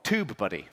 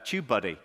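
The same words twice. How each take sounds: First: It is said in an American accent. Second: It is said in a British accent.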